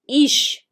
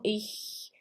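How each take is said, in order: First: The ch is not a soft hiss. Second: The ch is a light, soft hiss. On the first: This is a regional form used in parts of Germany and Austria. The speaker calls it wrong. "Muitos lugares, tanto da Alemanha quanto da Áustria, falam ich" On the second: This is the form to learn first. The speaker calls it right. "ele é um chiado na garganta, ele é um R, mas ele é bem suave"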